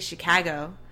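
The 'a' vowel is slightly flattened. This is how locals say it. "they say Chicago. They flatten that A a little bit"

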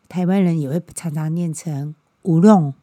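The middle consonant is an r-like sound.

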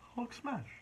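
It sounds curious and questioning.

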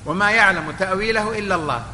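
The recitation stops right after the last word. Only God knows the true interpretation. "هنا وقف"

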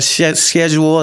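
It is said in a British accent.

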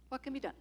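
It sounds resigned and hopeless. Nothing can be done, so it is time to give up. "I give up"

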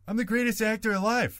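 It is said in an imitation of another man's voice. "I'm just going to try it"

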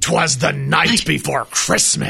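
It is said in a booming announcer voice.

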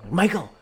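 The name is called out in panic.

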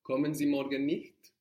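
It ends with a clear rising question tone. It asks whether they are not coming tomorrow. "You must also make the question tone with your voice quite obvious"

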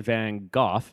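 It is said the British way.

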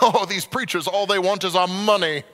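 It is said in a British accent.

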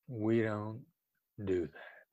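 The voice sounds calm, low and soothing. The point is fixed but open to working together. The speaker calls it right. "the other side is going to feel like, okay, let's see how we can work on this"

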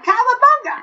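It is said in Pinky's voice.

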